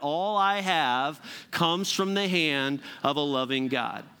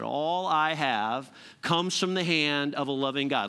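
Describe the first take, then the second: First: It is said with strong, believing conviction. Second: It is said plainly, without special conviction.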